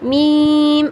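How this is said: The letter name is said with a nasal sound. The speaker calls it wrong. "जैसे कि अक्सर लोग कहते हैं मीम मीम, तो ये साउंड गलत है"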